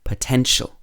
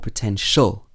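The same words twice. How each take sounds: First: The stress falls on the second syllable. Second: The stress falls away from the second syllable. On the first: The speaker calls it right. "It would be potential" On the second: The speaker calls it wrong. "It's not potential"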